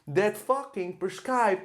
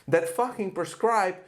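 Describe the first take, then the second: No difference in how they are said.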